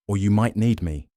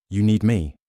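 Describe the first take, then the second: First: "Or you might need me." with "need" stressed, "me" light; "need" carries the weight, a falling tune after it. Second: "You need me?" with the weight landing on "me"; "me" hit hardest, falling off it; stress on me. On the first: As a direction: punch "need", let "me" fall away. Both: Acted.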